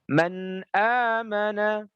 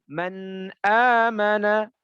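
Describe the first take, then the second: The two takes are said the same way.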